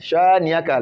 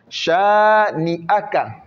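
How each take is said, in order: First: The 'a' after 'ni' is dropped. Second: The 'a' after 'ni' is clearly pronounced. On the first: The speaker calls it wrong. "Le A ne sort pas, non" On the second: The speaker calls it right. "Le A, on doit bien le prononcer"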